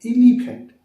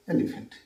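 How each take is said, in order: First: "এলিফ্যান্ট" with a long, loud EE start; wrong local pronunciation. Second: Low, falling "e-li-phant"; corrected pronunciation. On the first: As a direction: blare the first vowel as "ee-lee-phant", high. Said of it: "আমরা বলি কি?". ("এলিফ্যান্ট" শুরুতে জোরে লম্বা ই) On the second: ("এলিফ্যান্ট" নরম এ দিয়ে) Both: Shown as a demonstration.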